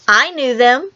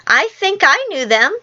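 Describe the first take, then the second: First: Lightly needling the others; annoying boast. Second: Higher, wavering up and down in doubt; doubtful Michael. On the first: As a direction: say it to annoy, as a child would. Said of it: "said to annoy the others". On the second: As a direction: sound unsure, pitch lifted like a small child. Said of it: "said Michael rather doubtfully". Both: A narrator's reading.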